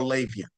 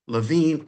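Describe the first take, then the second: First: The surname sounds like 'Lavian'. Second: The surname sounds like 'Levine'. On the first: Some people pronounce it this way. "or some pronounce it Lavian" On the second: This is the usual pronunciation. "with the last name Levine"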